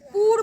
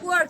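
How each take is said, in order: First: The vowel is a plain short 'oo' sound. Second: The vowel glides from 'oo' into 'uh'. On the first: The speaker calls it wrong. "পুর বলবে না" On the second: The speaker calls it right. "কি বলবে? পুয়ার"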